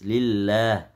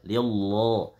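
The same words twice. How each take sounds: First: The L sound is light and thin. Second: The L sound is heavy and thick. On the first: The speaker calls it right. "Sedangkan kasrah dia tipis" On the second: The speaker calls it wrong. "Enggak boleh lillah. Lillah salah"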